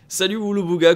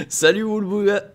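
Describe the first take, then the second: First: Said in the usual way. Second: Voice cracking. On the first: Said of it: "Pardon, pendant que j'ai la voix qui part en sucette". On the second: Real, not acted. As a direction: voice cracking on "Salut, Woolbooga". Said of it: "j'ai la voix qui part en sucette".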